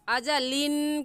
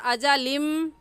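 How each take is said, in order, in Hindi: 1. शब्द n की आवाज़ पर खत्म होता है। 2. शब्द m की आवाज़ पर खत्म होता है। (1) "अजालिन कहना गलत है" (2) "अजालिम ये सही है"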